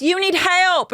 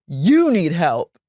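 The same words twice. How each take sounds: First: Much higher-pitched imitation of her; high, hammed-up retold accusation; mock outrage. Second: "You" drawn out and leaned on; slow retold retort, long emphatic "You"; retort stressing YOU. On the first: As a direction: hurl it back as her, high. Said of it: "She goes". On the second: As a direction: imitate his slow comeback, weight on "You". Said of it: "And he goes".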